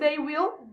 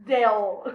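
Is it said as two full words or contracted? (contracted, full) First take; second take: full; contracted. First: Both words are said fully and separately. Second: The two words are merged into one syllable.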